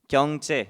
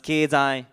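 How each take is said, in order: First: The word is pronounced the Korean way. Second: The word is pronounced the Japanese way. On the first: "경제 in Korean" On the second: "It's pronounced 経済 in Japanese"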